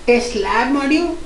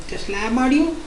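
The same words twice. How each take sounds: The two takes are said the same way.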